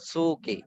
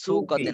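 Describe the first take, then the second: First: No 't' sound comes before the final vowel. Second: A 't' sound comes before the final vowel. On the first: The speaker calls it right. "না সুকি" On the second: The speaker calls it wrong. "সুকতে না"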